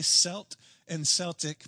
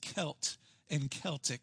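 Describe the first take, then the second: First: The words begin with a soft s sound. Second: The words begin with a hard k sound. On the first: The speaker calls it wrong. "I've watched the Boston Celtics play so many times, I'm going to say" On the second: The speaker calls it right. "I believe the pronunciation is"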